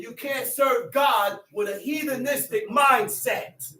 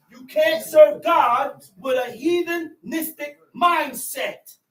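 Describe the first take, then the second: First: Said in the usual way. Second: Full-voiced sermon shout; preaching shout. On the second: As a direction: drive it home from the pulpit, slower.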